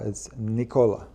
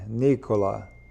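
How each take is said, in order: First: The stress falls on a later syllable. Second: The stress falls on the first syllable. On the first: This is how the name is really said. "It's not Nicola or Nicola. It's Nicola" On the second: This is the Italian way of saying the name. "that's in Italian. ... That's when they say it like that"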